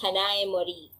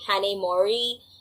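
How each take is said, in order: First: It is said with a Japanese-style accent. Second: It is said with an American accent.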